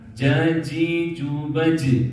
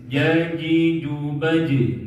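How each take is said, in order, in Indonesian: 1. Bunyi j-nya ada gesekan mendesis. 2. Bunyi j-nya bersih, tanpa desis. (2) "Jim itu tanpa desis. ... Gak ada desis"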